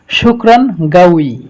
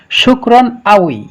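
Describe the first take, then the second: First: The second word starts with a hard consonant. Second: The second word starts with a glottal stop. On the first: "لو نحن نستخدم بالغين نتكلم شكرا قوي" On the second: "لو نستخدم بالهمزة نتكلم شكرا أوي"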